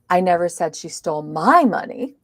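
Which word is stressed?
my. The stress is on the word my. It was someone else's money. "it was somebody else's money"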